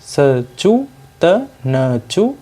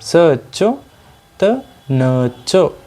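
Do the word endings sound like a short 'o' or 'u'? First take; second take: u; o. First: The words end in a Hindi-style short u vowel. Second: The words end in an o-like short vowel. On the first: The speaker calls it wrong. "यदि हम इसी कहावत को हिंदी की शैली में पढ़ें" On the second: The speaker calls it right. "Sindhi में इसका उच्चारण इस प्रकार होगा"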